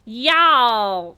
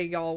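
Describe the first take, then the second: First: "Y'all!" drawn out long and much louder as a forced fake twang; mock a non-Southerner overdoing "Y'all!". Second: "y'all" said easy and short in her own Southern voice, one smooth syllable; natural Southern y'all. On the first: She mocks other people trying to say "Y'all!", a loud overdone fake twang. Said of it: "other people say y'all and they're like".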